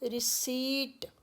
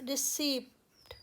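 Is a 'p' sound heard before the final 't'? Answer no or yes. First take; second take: no; yes. First: No 'p' sound is heard before the final 't'. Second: A 'p' sound is heard before the final 't'. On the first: The speaker calls it right. "प is silent" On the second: The speaker calls it wrong. "रिसीप्ट ही बोलते हुए सुना होगा"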